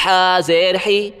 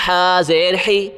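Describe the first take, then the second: No difference in how they are said.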